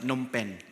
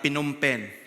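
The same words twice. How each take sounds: First: The initial P sound is silent. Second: The initial P sound is pronounced. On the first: The speaker calls it right. "the locals will uh, read it and say it as uh, ... So silent P" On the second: The speaker calls it wrong. "some people will uh, read it as"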